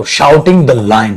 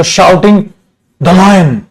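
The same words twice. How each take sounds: First: Very slow, every word drawn out; slow dictation. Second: Said in the usual way. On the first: Shown as a demonstration. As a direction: spell it out slowly for the class. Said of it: "ऐसे कर दो". (धीरे-धीरे बोलकर लिखवाना) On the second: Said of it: "तो".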